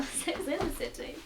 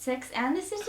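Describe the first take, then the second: First: "in" picked out as the alternative; stress on IN. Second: "and" picked out, title rising at the end; stress on AND. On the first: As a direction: offer "in" as the other choice. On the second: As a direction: pose it as a question on "and". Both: Acted. Mock wondering between the two titles.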